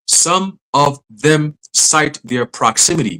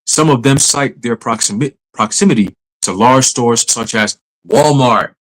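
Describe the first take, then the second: First: Slow, deliberate, word-by-word reading. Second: Said in the usual way. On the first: Shown as a demonstration. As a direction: read it slowly, spacing out each word. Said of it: "Let me read that again slow". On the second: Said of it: "read that again slow".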